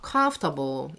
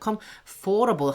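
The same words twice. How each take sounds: First: The stress falls on the first syllable. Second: The stress falls on the second syllable. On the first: The speaker calls it right. "여기 강세 있어요" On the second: The speaker calls it wrong. "comfortable 하지 마세요"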